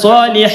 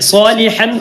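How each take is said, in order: First: The word ends with a lengthened a vowel. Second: The word ends with an n sound. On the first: The speaker calls it right. "ഫത്ത് കൊടുക്കുകയും അല്പം നീട്ടിയിട്ട് വഖഫ് ചെയ്യുക" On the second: The speaker calls it wrong. "സ്വാലിഹൻ സ്വാലിഹ എന്നല്ല"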